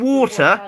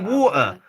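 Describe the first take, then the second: First: The T in the middle is clearly pronounced. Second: The T in the middle is dropped. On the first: "Instead of saying water" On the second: "we say water. ... We don't say our T's"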